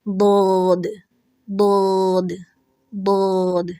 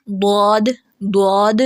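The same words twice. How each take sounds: First: بود with the alif also heavy and deep; heavy alif demo. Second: بود said with rounded lips so it sounds like بود with an o; rounded-lips mistake. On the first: Teacher showing students the heavy alif in بود. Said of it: "اس الف کو بھی heavy ہی کریں گے". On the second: Teacher imitating the students' rounded-lip error. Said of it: "ہونٹوں کا استعمال کرتے ہیں تو وہ بود بن جاتا ہے". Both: Shown as a demonstration.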